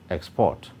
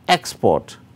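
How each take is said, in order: First: The stress is on the second syllable. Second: The stress is on the first syllable. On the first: It is used as a verb. "verbs are stressed on the second syllable" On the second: It is used as a noun. "nouns and adjectives are stressed on the first syllable"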